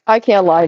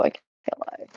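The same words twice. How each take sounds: First: Said in the usual way. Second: Whispered aside. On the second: Real, not acted.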